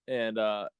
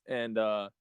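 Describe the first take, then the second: No difference in how they are said.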